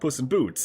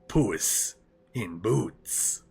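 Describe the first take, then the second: First: It is said in a plain, unaccented voice. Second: It is said in a thick Spanish accent. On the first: The speaker calls it wrong. "It's not Puss in Boots" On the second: The speaker calls it right. "you gotta do it with a thick Spanish accent"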